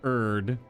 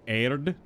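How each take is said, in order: First: The D is a plain American D. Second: The D is flicked and rolled. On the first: The speaker calls it wrong. "very American English" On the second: The speaker calls it right. "like you like flick and roll the D"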